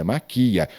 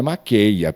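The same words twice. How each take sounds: First: "maquia" with no ei glide; correct form maquia. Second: Stressed QUEI in "maqueia", as the mistake; wrong form maqueia. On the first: Teacher corrects how pupils conjugate maquiar, correct form maquia. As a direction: say "maquia" with a stressed i, ma-QUI-a. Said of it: "é maquia". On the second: Teacher rejects a common conjugation error, wrong form maqueia. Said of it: "não é maqueia". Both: Shown as a demonstration.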